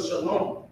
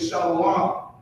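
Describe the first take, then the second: First: Shalom in two syllables, "shuh-LOM"; correct pronunciation. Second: Shalom as "SHAH-lo-wah", three syllables; added O sound. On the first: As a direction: say Shalom without the "wa". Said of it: "instead of Shalom". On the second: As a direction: put a "wa" after the O in Shalom. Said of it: "that's why they say". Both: Shown as a demonstration.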